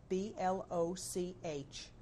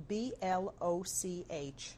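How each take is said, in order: Both takes have the same delivery.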